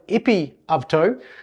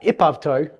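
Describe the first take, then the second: First: Both vowels are said, as two separate words. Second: The first word's final vowel drops, words merging. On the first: "Same with epi-avto" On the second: "again, to do the same thing"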